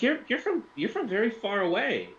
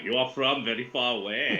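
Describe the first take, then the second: First: High-pitched woman's voice, accent slipping; high feminine voice with barely any accent; failed female Russian voice. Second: Put-on Russian accent at a normal pitch. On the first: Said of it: "then it's just not gonna work". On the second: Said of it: "I want to do the Russian accent". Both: Shown as a demonstration.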